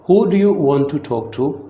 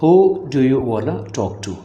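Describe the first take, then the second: First: Want and to are said as separate words. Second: Want and to blend into one word, wanna.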